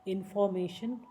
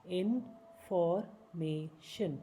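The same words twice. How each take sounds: First: Said in the usual way. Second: information stretched slowly, each syllable apart. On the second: Shown as a demonstration. Teacher slowing information down for learners.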